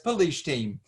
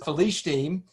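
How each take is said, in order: First: The word begins with a P sound. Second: The word begins with an F sound. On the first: "here you have the Pei" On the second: "it doesn't have the Dagesh"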